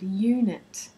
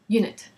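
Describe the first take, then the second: First: The first vowel is drawn out long. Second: The first vowel is cut short. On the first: The speaker calls it right. "you need to emphasize that long sound" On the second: The speaker calls it wrong. "if you said, for example"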